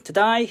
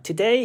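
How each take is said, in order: First: Australian "today", second syllable sounding like "die"; Australian accent. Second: Said in the usual way. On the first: Shown as a demonstration. Teacher showing students how the man said it, Australian accent. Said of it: "ซึ่งมันจะเหน่อๆ". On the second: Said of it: "มันเป็น Australian นะครับ".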